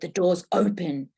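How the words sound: It sounds hostile, like an order to leave.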